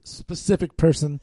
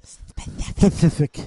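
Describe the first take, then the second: First: Slipping into a Chicago accent on "specific"; "specific person" with Chicago vowels. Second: "Specific" stretched very slowly, breathy, Chicago vowels; drawn-out Chicago "Specific". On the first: Real, not acted. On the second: Shown as a demonstration. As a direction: repeat "Specific" slowly, half-whispered, in a Chicago accent. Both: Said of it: "My Chicago accent kinda came out".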